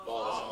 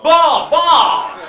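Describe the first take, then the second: First: Dropped very soft. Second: Sudden high shout. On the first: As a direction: let the word fall almost under breath. Punchline dropped quietly. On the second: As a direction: yell "Balls, balls!" much higher and louder. Punchline shouted. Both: Acted.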